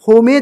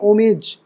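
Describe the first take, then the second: First: The word begins with an h sound. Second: The word begins with a vowel, no h. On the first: The speaker calls it wrong. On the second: The speaker calls it right.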